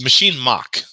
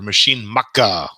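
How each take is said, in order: First: It is said in an American accent. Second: It is said in a Japanese accent.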